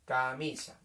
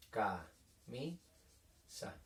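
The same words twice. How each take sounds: First: Said in the usual way. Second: Camisa very slowly and softly, ca... mi... sa with long gaps; syllable by syllable. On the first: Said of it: "Por ejemplo". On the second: Shown as a demonstration. Teacher writing a three-syllable word, camisa slowly split into ca, mi, sa. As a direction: break camisa into three quiet, separate syllables. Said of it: "Tres golpes de voz".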